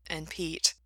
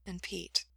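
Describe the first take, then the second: First: Said in the usual way. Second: Very soft, subdued voice; quiet. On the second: A narrator's reading. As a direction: let the voice drop right down. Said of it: "Gerard's voice got quiet".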